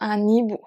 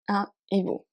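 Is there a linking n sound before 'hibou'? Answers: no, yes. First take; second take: yes; no. First: An n sound links un to hibou. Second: No n sound links un to hibou. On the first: The speaker calls it wrong. "So not" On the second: The speaker calls it right. "You do not make a liaison"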